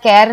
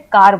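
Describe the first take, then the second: First: The vowel is an 'ae' sound as in cat. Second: The vowel is a long open 'ah' sound. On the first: The speaker calls it wrong. "हम इसे केर या कैर नहीं बोलते" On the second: The speaker calls it right. "हम इसे कार बोलते हैं"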